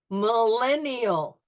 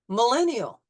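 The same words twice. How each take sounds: First: It is said slowly, syllable by syllable. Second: It is said smoothly at normal speed. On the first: "you'll hear it in slow motion syllables" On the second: "at regular speed"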